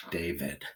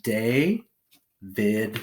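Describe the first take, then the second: First: Said in the usual way. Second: "day, vid" in two separated beats; syllable by syllable. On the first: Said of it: "So we have day, vid". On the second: Shown as a demonstration. Teacher putting syllables together, "day, vid" said apart. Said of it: "So we have".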